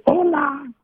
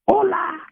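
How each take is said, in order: First: Squawky high parrot hello. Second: High squawky parrot hola. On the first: Pastor imitating his parrot, squawky high parrot hello. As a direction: mimic a parrot echoing back. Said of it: "el loro te repite". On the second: Parrot adding hola afterwards, high squawk. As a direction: screech it like a parrot. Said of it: "Y después decía". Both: Retold or imitated.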